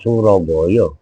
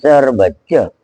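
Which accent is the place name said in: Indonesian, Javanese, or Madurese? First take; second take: Javanese; Madurese. First: It is said in a Javanese accent. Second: It is said in a Madurese accent. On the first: "Kalau kata orang Jawa" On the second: "Kalau kata orang Medundan"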